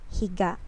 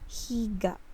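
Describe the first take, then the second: First: The word is said quickly and clipped. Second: The word is said slowly and drawn out. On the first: The speaker calls it right. "it is the fast one" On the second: The speaker calls it wrong. "it is not right if we will pronounce it like higa"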